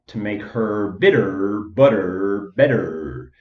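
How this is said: It is spoken in an American accent.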